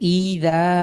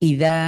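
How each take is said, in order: First: The first vowel is drawn out long. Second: The first vowel is kept short. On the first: The speaker calls it wrong. "হামজাতে টান হচ্ছে। আপনি পড়ছেন ই দা" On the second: The speaker calls it right. "আমরা টান ছাড়া যদি পড়তে চাই"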